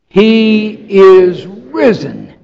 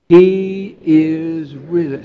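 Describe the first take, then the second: First: It is said with strong, emphatic conviction. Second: It is said plainly, without extra force.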